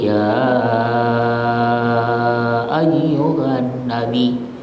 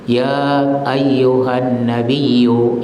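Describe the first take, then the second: First: The long vowel is held for six counts. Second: The long vowel is held for two counts. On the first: "boleh enam dalam ilmu qiraah" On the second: "Boleh dua"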